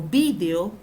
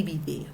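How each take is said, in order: First: "vídeo" stressed on the first syllable, VÍ-de-o. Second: "video" stressed on the middle syllable, vi-DÉ-o. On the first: Teacher contrasting two accepted forms, "vídeo" as VÍ-de-o. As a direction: punch the VI in "vídeo". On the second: Teacher contrasting two accepted forms, "video" as vi-DÉ-o. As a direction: move the weight onto DE in "video". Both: Shown as a demonstration. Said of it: "Se escribe con tilde y sin tilde".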